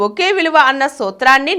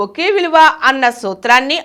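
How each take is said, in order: Both takes have the same delivery.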